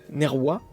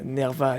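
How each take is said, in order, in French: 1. Il se prononce en latin classique. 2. Il se prononce en latin d'église vaticane. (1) "prononciation latine" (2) "la prononciation maintenant, euh, Vatican"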